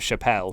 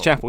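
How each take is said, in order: First: The name sounds like the comedian's surname. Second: The name sounds like the word 'chapel'. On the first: The speaker calls it wrong. "I initially said it as um, Chappelle" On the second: The speaker calls it right. "it's Chapel, ... more like, you know, the church"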